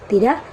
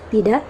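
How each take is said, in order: The two takes are said the same way.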